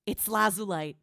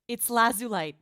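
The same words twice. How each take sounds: First: Gasp, then name it in awe; gasping realization. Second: Louder, brighter call of Lazulite; excited confirmation. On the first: Streamer gasps on recognizing her own team in the video. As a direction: catch your breath as you recognize them. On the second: Streamer excitedly confirms her old team to chat. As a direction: announce it proudly. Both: Real, not acted.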